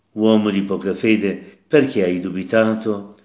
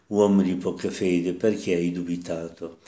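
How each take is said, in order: First: Said in the usual way. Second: Gentle, not a reproach. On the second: Shown as a demonstration. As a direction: tell Peter tenderly, no scolding. (dolce, senza rimprovero) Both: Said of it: "Che non è un rimprovero".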